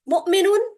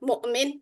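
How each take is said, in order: First: The word ends with an -un ending. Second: The word stops on the final consonant.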